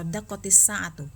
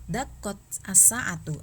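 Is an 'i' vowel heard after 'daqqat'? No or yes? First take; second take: yes; no. First: An i vowel links the t to the next word. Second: The t ends without a vowel before the next word. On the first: This form makes it easier to pronounce. "jadi ini dikasrohkan" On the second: This is the original underlying form. "aslinya itu harokatnya sukun"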